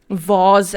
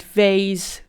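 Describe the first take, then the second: First: "vase" as vawz, open back vowel; broad vase. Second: "vase" as vayz, rhyming with days; vayz-style vase. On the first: Vlogger contrasting word variants, broad back-vowel pronunciation. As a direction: say "vase" to rhyme with pause. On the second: Vlogger contrasting word variants, long-ay pronunciation. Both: Shown as a demonstration. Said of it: "different pronunciations of certain words".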